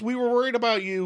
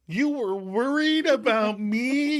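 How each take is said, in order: First: Quick explanation. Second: Much higher, slow and goofy; silly mock concern. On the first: Retold or imitated. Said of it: "quickly explains". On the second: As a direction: turn the words into a playful mock question. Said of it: "going all silly again".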